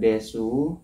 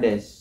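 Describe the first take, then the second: First: The final u vowel is pronounced. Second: The final u vowel is dropped.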